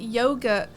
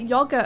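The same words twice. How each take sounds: First: The word is given its American pronunciation. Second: The word is given its British pronunciation. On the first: "in the U S we pronounce it yogurt" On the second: "we call it yogurt over here"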